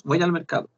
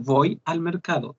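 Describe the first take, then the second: First: Voy al mercado run together in one breath; Voy al mercado linked without breaks; linked speech. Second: Voy al mercado said slowly with each word apart; Voy, al, mercado clearly separated; separate words. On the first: Teacher shows how everyone really says it: linked. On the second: Teacher shows how nobody says it: word by word. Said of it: "no decimos". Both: Shown as a demonstration.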